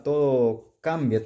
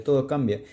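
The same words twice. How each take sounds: First: Todo cambia drawn out slowly, weight on todo; slow emphatic. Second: Said in the usual way. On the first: Shown as a demonstration. Showing viewers the original beside the replica, todo cambia said slowly.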